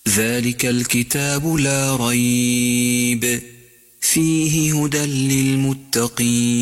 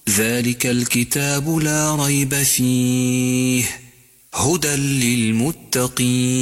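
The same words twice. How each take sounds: First: There is a pause after 'la rayb'. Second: There is a pause after 'fihi'.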